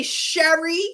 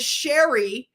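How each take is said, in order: First: Sherry said the Philly way, as the Northeast says it; Philly accent. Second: Said in the usual way. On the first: Shown as a demonstration. Showing listeners how Northeast Philly says a name, Philly accent. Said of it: "That's a Philly accent". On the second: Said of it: "they say Sherry".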